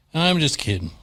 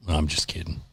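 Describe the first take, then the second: First: Said in the usual way. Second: Muttered aside. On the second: Real, not acted.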